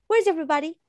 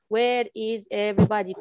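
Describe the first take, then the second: First: Natural, contracted Where's, pitch lifting; contracted "Where's" said like the show; like Rachel says it. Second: The uncontracted wrong version. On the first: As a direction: model the line as the character. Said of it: "The same way she say". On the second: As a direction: spell out every word stiffly. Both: Shown as a demonstration.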